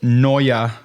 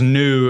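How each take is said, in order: First: The word is said with two syllables, noy-uh. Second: The word is said with one syllable, new. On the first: It follows the typographers' refined pronunciation. "in the snobby typographic dialect" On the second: It is the everyday plain pronunciation. "if you're not pronouncing it in the snobby typographic dialect"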